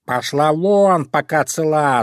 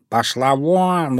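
First: Louder, slow shouted threat; shouting cat. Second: Slow, menacing cat hiss; threatening hiss. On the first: Cat shouting the crow away, slow angry yell. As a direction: yell at her to get lost. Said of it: "закричал на неё кот Васька". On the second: Cat warning the fox off the fish, slow menacing hiss. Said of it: "угрожающе зашипел Васька". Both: Acted.

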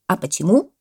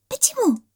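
First: Loud, pointed question; parrot exclaiming. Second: Very high squeaky question; monkey echo. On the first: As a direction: demand a reason. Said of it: "воскликнул попугай". (громкий вопрос попугая) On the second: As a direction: chime in like a little monkey. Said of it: "подхватила мартышка". (подхватывает мартышка) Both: A narrator's reading.

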